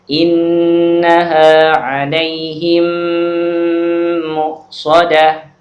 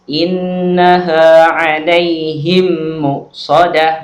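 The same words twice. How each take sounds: First: It is read slowly with a held nasal hum. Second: It is read hastily without a held nasal. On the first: The speaker calls it right. "Harus ditahan, harus ada gunnahnya" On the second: The speaker calls it wrong. "Nggak boleh dibaca tergesa-gesa seperti itu"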